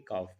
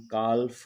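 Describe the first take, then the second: First: काफ with the l silent; काफ said plainly, no l sound; correct pronunciation. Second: काल्फ with the l sounded, as the mistake; काल्फ, voicing the l before f; wrong pronunciation. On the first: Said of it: "बल्कि काफ". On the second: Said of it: "हम काल्फ नहीं पढ़ेंगे". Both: Shown as a demonstration.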